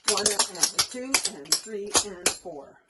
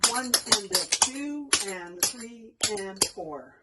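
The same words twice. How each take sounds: First: The counting is said more quickly. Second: The counting is said slowly.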